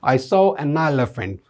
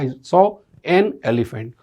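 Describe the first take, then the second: First: 'An' runs smoothly into the following word. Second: 'An' is said apart from the following word. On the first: "British English और American English की बात की जाए तो बोलते हैं" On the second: "हमारा बोलते हैं"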